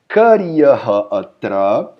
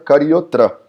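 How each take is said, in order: First: Said with the h sound and separate words. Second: Said fused with an o and no h. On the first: This is the underlying written form. "o que está escrito aqui por baixo é karyaha atra" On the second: This is how it is pronounced in practice. "Na prática da pronúncia, Karyahatra fica Karyotra"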